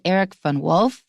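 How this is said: The name is said with an American pronunciation. "That's American, an American pronunciation"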